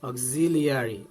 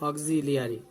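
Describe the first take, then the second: The two takes are said the same way.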